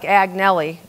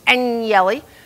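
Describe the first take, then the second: First: The name is read letter by letter as spelled. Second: The name is said the native Italian way. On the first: The speaker calls it wrong. "It looks like Agnelli" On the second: The speaker calls it right. "but it's Agnelli"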